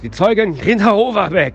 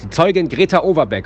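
First: The voice is strained with a tense throat. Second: The voice is relaxed and plainly spoken.

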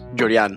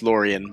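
First: The name is said with a Spanish pronunciation. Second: The name is said with an American English pronunciation. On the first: This is the family's original pronunciation. "my parents are Cuban, so it's pronounced Llorian" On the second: This is how people in the speaker's home town say it. "I'm from New York, where everyone says Llorian"

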